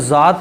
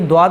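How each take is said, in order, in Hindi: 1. नाम की शुरुआत z की आवाज़ से होती है। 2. नाम की शुरुआत d की आवाज़ से होती है। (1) "ये ज़ाद पढ़ा जाएगा" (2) "ये द्वाद बिल्कुल नहीं पढ़ा जाएगा"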